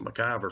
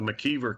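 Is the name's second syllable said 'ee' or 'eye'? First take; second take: eye; ee. First: The second syllable has an 'eye' vowel. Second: The second syllable has an 'ee' vowel. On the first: This is how the speaker's group says it. "we pronounce it McIver for some reason" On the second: This is how the local community says it. "They actually pronounce it the McKeever community"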